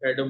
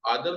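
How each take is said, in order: First: The name begins with a short 'e' vowel. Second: The name begins with a long 'aa' vowel. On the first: This is the American way to say the name. "वो एडम बोलते हैं" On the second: This is the Urdu way to say the name. "असल में जो American हैं वो आदम नहीं बोलते"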